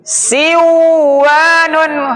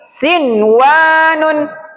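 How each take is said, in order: First: The n before w is merged away. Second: The n before w is pronounced clearly. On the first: The speaker calls it wrong. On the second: The speaker calls it right. "Karena khusus untuk kata ini"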